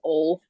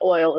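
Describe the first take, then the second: First: It is said in a strong Southern accent. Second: It is said in a neutral, non-Southern accent. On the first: "my real southern accent" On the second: "It's not oil"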